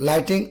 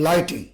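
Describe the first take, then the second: Both takes have the same delivery.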